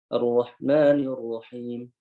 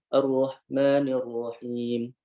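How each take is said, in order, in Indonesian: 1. Bunyi h lemah berdesah dan samar. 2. Bunyi h lemah berdesah dan samar.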